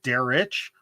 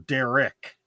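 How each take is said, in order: First: The name ends in a soft breathy sound. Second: The name ends in a hard k sound.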